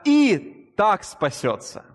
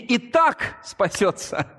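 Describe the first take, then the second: First: The two words are said separately. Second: The two words run together as one word. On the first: The speaker calls it right. "Это два слова «и так»" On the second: The speaker calls it wrong. "кажется, что это вместе одно слово «и так»"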